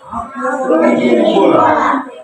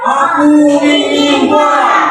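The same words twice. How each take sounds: First: It is said fairly softly. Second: It is said loudly.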